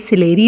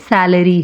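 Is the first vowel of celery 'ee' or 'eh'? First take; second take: ee; eh. First: The first vowel sounds like 'ee'. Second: The first vowel sounds like 'eh'. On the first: The speaker calls it wrong. "ये सिलेरी नहीं" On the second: The speaker calls it right. "बल्कि सैलरी है"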